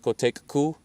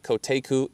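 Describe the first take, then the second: First: The k in the middle is doubled. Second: The k in the middle is short. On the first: The speaker calls it right. "The double K um, is, ... it's Kotekku" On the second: The speaker calls it wrong. "is not Koteku"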